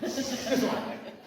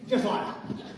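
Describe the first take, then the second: First: Slow, softer Tommy Cooper impression with a laugh; Tommy Cooper catchphrase. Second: Light laughing Tommy Cooper impression; Tommy Cooper catchphrase. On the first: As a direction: drag out the catchphrase, chuckling. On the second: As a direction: toss off the catchphrase with a chuckle. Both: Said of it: "I'm gonna do it like Tommy Cooper".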